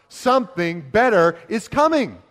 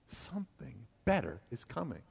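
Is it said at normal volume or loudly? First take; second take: loudly; normal volume. First: It is said loudly. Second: It is said at normal volume.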